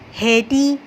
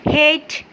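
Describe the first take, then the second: First: An extra vowel sound is said at the end. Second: The word ends without any extra vowel sound. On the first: The speaker calls it wrong. "नहीं पढ़ते" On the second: The speaker calls it right. "सिर्फ सिंपल इसको ऐसे पढ़ते हैं"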